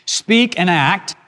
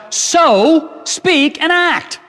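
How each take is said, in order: First: Said in the usual way. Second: So, SPEAK and ACT drawn out very slowly and pitched high; stress on SPEAK and ACT. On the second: Shown as a demonstration. Preacher voicing James's charge to believers, SPEAK and ACT heavily emphasised. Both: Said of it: "The emphasis is on speak".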